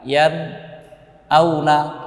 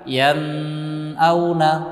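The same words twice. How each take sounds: First: A short break follows the nun sound. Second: The nasal nun sound is held long. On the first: "atau berhenti sejenak" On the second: "Tidak boleh ditahan"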